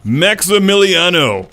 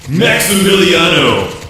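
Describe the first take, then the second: First: The name is said with a dry sound. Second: The name is said with an echoing reverb.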